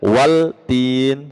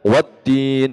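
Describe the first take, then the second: First: A clear L is sounded before the T. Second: The L blends into a doubled T sound. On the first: The speaker calls it wrong. "nggak boleh dibaca waltin, salah" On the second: The speaker calls it right. "Jadi harus dibaca wattin"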